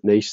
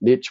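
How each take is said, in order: First: It uses the speaker's own non-American pronunciation. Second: It uses the North American pronunciation. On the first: "we pronounce it niche" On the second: "in North America, you guys pronounce it niche"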